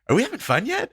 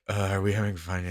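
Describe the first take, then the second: First: It is said cheerfully, as if meant. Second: It is said miserably, without meaning it.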